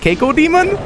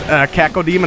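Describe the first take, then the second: First: The first syllable sounds like 'kye'. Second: The first syllable sounds like 'cack'. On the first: Someone else says it this way. "as Keiko Demon" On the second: This is the usual way of saying it. "Vinny pronounces Caco Demon"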